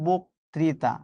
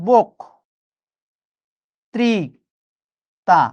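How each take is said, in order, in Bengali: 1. সিলেবলগুলো কোনো বিরতি ছাড়াই একসাথে জুড়ে বলা হয়। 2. সিলেবলগুলো আলাদা করে, বিরতি দিয়ে বলা হয়।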